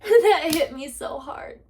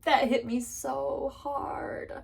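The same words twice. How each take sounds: First: That hit me so hard, said higher and slow; emphatic. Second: That hit me so hard, whispered slowly; whispered repeat. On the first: Telling viewers about Haley's words, said high and slow. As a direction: land That with force. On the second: Telling viewers about Haley's words, whispered slowly. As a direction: breathe it out in a slow whisper. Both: Shown as a demonstration.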